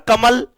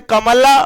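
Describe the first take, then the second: First: Said in the usual way. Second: कमला ending in an open आ sound; added final vowel. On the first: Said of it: "कमल के last में अ आया?". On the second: Shown as a demonstration. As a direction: say कमला with the last vowel voiced. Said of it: "अगर मैं कमला ऐसे बोलता".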